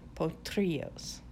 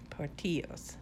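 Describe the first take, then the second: First: An r sound follows the t. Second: An r sound follows the first o. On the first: The speaker calls it right. "There's no R before the T" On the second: The speaker calls it wrong. "I always want to put an R in there where there's not one"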